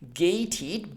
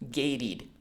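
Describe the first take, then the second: First: The t is said in careful, separate speech. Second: The t is said in relaxed, fluent speech. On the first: "not gated" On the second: "in connected, fluent, spoken American English, gated becomes gated"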